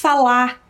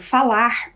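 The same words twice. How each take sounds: First: The final r sound is dropped. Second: The final r sound is pronounced.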